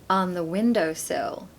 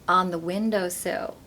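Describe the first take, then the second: No difference in how they are said.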